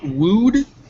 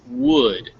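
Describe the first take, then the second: First: The vowel is a long, tense oo sound. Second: The vowel is a short, lax oo sound. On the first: The speaker calls it wrong. "it's not wooed" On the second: The speaker calls it right. "it's wood. So relax your ooh"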